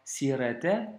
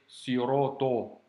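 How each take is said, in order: First: The s and t sounds are plain, not emphatic. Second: The s and t sounds are emphatic, darkening vowels. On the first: The speaker calls it wrong. "C'est pas sirete" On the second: The speaker calls it right. "avec la lettre sod et la lettre to, qui sont à prononcer avec emphase"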